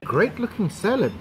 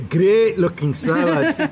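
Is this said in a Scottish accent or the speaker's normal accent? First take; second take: normal; Scottish. First: It is said in the speaker's normal accent. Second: It is said in a put-on Scottish accent.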